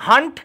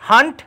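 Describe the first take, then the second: The two takes are said the same way.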